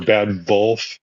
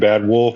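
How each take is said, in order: First: The second word starts with a V sound. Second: The second word starts with a W sound.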